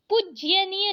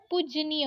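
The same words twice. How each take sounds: First: पूज्यनीय with an extra y before -नीय; wrong pronunciation. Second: Said in the usual way. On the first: Shown as a demonstration. Teacher showing a common error, पूज्यनीय with added y. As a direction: say पूज्यनीय as puj-ya-niya. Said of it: "पूज्यनीय नहीं होता है". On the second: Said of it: "पूजनीय होता है".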